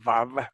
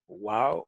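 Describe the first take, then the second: First: It begins with a buzzing v sound. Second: It begins with a rounded w sound. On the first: "no dicen vav, como dicen ahora los judíos" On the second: "siempre pronuncian la wow como u"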